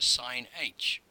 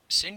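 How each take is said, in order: First: It is said as 'sine' plus the letter h. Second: It is said as one syllable, 'sinch'. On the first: "or even just sine h" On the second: "Some will call it sinh"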